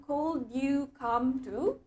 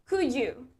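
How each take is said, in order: First: Very slow "Could you come to?", drawn out and rising; wrong version. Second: Said in the usual way. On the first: Shown as a demonstration. Teacher shows students the form to avoid, very slowly. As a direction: stretch out the wrong form slowly, like a question left hanging. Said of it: "Oke, jadi bukan".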